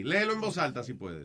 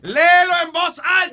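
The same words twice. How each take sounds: First: Soft, understated instruction; hushed, casual prompt; low-key request. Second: High, impatient shout; shouted command to read; exasperated yell. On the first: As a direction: ask him quietly to read. First, low request to read aloud. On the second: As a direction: order him at the top of your pitch. Third request, patience gone. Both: Real, not acted.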